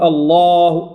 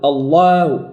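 First: «الله» held long, L and A both dark; forma correta. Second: Wrong «الله»: heavy L, then a thin fronted vowel; thin out the A of الله after a dark L; erro demonstrado. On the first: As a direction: keep the mouth level so الله stays heavy throughout. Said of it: "لا، نقول". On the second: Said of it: "من الأخطاء أن نقول". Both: Shown as a demonstration.

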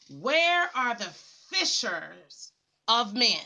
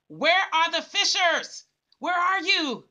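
First: Slow, low, drawn-out preacher's question; measured, lower rhetorical question; slow searching call. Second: The same question thrown out with more push; a touch more fervent preacher's call; rising urgent call. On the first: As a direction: ask it slowly, as if searching the crowd. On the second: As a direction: press the question harder, as a summons. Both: Acted.

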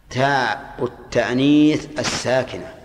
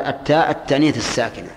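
First: التأنيث slow with the weight on it; slow, stressed repeat. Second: Said in the usual way. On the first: Shown as a demonstration. Teacher repeating the author's term to students, stressing التأنيث. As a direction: lean on التأنيث and say it slowly. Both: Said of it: "هنا قال".

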